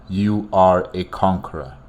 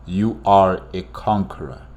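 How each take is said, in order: Both takes have the same delivery.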